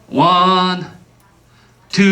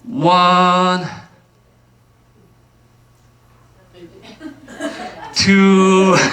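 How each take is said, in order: First: The count is said at one per second. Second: The count is drawn out more slowly.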